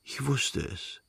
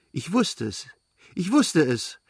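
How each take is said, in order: First: Soft, slow, drowsy murmur; barely awake, savouring it; sleepy murmur. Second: Bursting out with his favourite phrase; blurted out. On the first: Sleepy boy murmurs to his returned mother, soft and slow. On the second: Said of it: "stieß er seinen Lieblingssatz hervor". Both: A narrator's reading.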